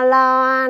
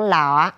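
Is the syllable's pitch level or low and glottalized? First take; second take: level; low glottalized. First: The syllable is said on a level pitch. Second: The syllable is said low and glottalized.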